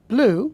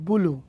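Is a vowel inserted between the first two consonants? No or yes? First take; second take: no; yes. First: The word begins with a consonant cluster. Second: A vowel separates the first two consonants. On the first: "আপনি বলবেন ব্লু" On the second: "সে বলবে বুলু"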